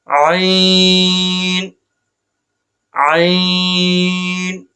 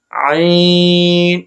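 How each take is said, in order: First: عین held within its limit, opening not overdone; correct restrained version. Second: عین with an overlong, exaggerated opening; wrong overdone version. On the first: Teacher showing students the proper عین, measured and held. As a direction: hold عین long but keep the start restrained. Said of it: "عین نہیں،". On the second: Teacher showing students how not to say عین, overdone. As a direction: overdo the start of عین on purpose. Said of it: "آپ نے اس طرح نہیں پڑھنا". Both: Shown as a demonstration.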